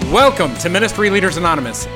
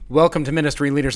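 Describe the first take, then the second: First: It is said with more excitement and energy. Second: It is said calmly, without much excitement.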